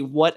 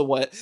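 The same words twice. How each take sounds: First: What with a small rising question tune, asking to hear again; a quick "what" as if the words got lost; didn't-hear what. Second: What said flat and falling, mild shock at the insult; a stunned "what" at an outrageous remark; disbelieving what. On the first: Viewer who missed a line asks again, puzzled. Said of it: "as in "I can't hear". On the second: Superman reacts to Lex's insult, lightly stunned. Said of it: "I can't believe you just said that" type thing". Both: Shown as a demonstration.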